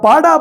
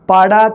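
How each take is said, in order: First: The word is said with a high tone. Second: The word is said with a low tone. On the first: An educated, studious person. "ਉੱਚੀ ਸੁਰ ਦੇ ਵਿੱਚ ਬੋਲ ਰਿਹਾ" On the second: A gap or crack in something. "ਮਤਲਬ ਨੀਵੀਂ ਸੁਰ ਰੱਖ ਕੇ"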